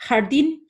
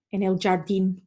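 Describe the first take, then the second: First: Jardín starting with a throaty Spanish H; Jardín with a proper Spanish guttural J. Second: Jardín with a J as in English "jam"; mock an English speaker's Spanish, soft J in jardín; jardín mispronounced with an anglicised J. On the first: Shown as a demonstration. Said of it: "really need to practice that one". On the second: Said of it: "hearing an English-speaking person saying".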